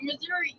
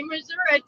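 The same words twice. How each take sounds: First: "Missouri" ending in an "ee" sound; preferred Missouri pronunciation. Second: "Missouri" ending in an "uh" sound; mispronounced Missouri. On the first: Cohost correcting people who say it otherwise, Missouri with ee. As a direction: say "Missouri" with a final ee. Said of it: "instead of saying". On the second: Cohost showing the hated version, mispronounced Missouri. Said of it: "I hate it when people say". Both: Shown as a demonstration.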